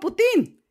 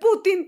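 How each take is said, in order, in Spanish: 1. El acento está en la última sílaba. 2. El acento está en la primera sílaba. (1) "yo le pongo la tilde y digo Putin" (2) "dicen Putin y no le ponen tilde"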